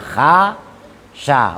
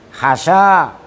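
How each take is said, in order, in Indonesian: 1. Kedua vokal pada kata itu panjang. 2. Hanya vokal kedua yang panjang. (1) "setelah ha dan setelah sin ada alifnya, bunyinya kha sya" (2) "membuang alif al ula yang pertama"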